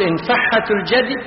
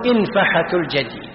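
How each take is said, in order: First: انفحة الجدي as infaḥḥatu l-jady; doubled ha. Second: انفحة الجدي as infaḥatu l-jady, single ḥ; lightened ha. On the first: Teacher allows two forms, انفحة الجدي with heavy doubled ḥ. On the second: Teacher allows two forms, انفحة الجدي with light single ḥ. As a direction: say انفحة الجدي with a short, undoubled ḥ. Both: Shown as a demonstration. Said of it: "هذا معنى وتخفف".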